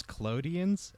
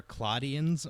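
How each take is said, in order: First: Claudians slow, in the form about to be corrected; mistaken pronunciation. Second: Claudians slow, as the corrected form; corrected pronunciation. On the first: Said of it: "my mistake". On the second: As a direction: offer Claudians slowly as a self-correction. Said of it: "or Claudians, my mistake". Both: Real, not acted.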